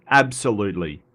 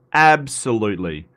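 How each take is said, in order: Both takes have the same delivery.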